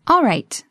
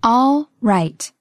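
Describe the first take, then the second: First: Said in the usual way. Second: Slow, drawn-out words; slow model. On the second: Shown as a demonstration. Teacher modelling a phrase for learners, slowly. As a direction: stretch and separate both words.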